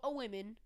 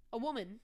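First: "woman" with a short i in the first syllable, like "women"; mispronounced word. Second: Said in the usual way. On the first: Real, not acted. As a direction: say "woman" as "wimmin". Slips, then corrects the word.

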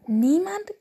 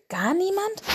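First: High rising Niemand? in surprise; can't believe it; astonished. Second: Gar niemand? rising very high; even more astonished. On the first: Father bear astonished at his son's tale. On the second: Father bear presses his son, amazed. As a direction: disbelief climbing further. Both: A narrator's reading. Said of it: "fragte Vater Eisbär erstaunt".

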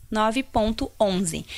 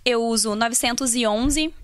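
First: "nove ponto onze" spelled out digit by digit, slowly; dictated slowly. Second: Said in the usual way. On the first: Shown as a demonstration. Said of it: "anota aí". (ditando devagar "nove ponto onze", número por número) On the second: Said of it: "Da L'Oréal, nove ponto onze".

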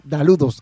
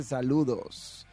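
First: "daludos" with a d sound at the start; wrong pronunciation. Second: "Saludos" slowly, with a clear s at the start; correct pronunciation. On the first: Streamer quotes a viewer's typo, "daludos" said with d. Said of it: "aunque fue daludos que dijo". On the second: Streamer reads the viewer's correction, slow clear "Saludos". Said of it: "aquí lo corrige y dice". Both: Retold or imitated.

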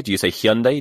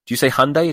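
First: Hyundai said hyun-day with the y sound, rising question; Hyundai pronounced hyun-day as a rising question. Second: Hyundai said hun-day with no y sound, rising question; Hyundai pronounced hun-day as a rising question. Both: Shown as a demonstration. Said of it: "I can't pronounce it".

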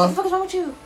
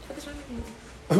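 First: High, rapid-fire scolding impression; caricatured parent reprimand, pitched up. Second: Lightly voiced exasperated parent, slow and soft; understated parental reprimand.

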